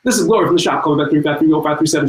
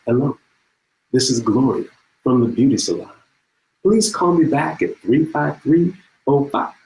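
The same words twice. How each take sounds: First: Rushed caller, words crammed together, slightly raised pitch; Gloria. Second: Leisurely caller, spacing out each piece; slow phone message. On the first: Caller beating the end of the answering-machine tape, very fast. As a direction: rattle off a phone message at top speed. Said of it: "talk as fast as she could". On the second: Gloria from the beauty salon leaving a message, slow and unhurried. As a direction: imitate an unhurried answering-machine message, pausing between parts. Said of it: "the first message sounds like this". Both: Acted.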